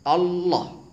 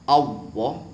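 First: The tongue is curled too far back. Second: The word is said with a w-like sound. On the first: "Atau lidahnya ditekuk terlalu ke belakang, ... salah" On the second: "Apabila diucapkan dengan menggunakan wawu, ... ini salah"

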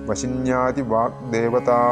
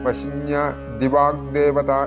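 First: The break falls after 'vashinyadi'. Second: The break falls after 'vashinya'. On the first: The speaker calls it right. "ആദി എന്നുള്ളത് കേൾക്കണം" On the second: The speaker calls it wrong. "വശിന്യ ദിവാഗ്ദേവത എന്നൊന്നും ജപിച്ചു പോകരുത്"

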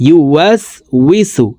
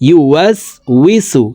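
No difference in how they are said.

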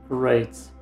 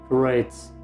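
Both takes have the same delivery.

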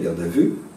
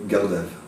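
First: The word ends on an open vowel sound. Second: The word ends on a closed consonant syllable. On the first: "un mot qui se termine sur une voyelle" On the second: "un mot qui se termine sur une syllabe fermée"

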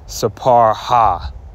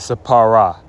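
First: The ending is a separate 'ha' syllable. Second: The ending blends in as a final 'a'. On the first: The speaker calls it wrong. "you're not going to say sapar ha" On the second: The speaker calls it right. "You're going to say, how do you say it? Sapara"

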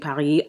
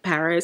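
First: It is said with a local, native pronunciation. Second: It is said with an American pronunciation. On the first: The speaker calls it right. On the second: The speaker calls it wrong.

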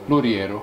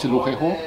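First: The name is said with Spanish pronunciation. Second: The name is said with French pronunciation.

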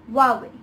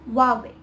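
First: The word sounds like 'Hwah-way'. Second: The same.

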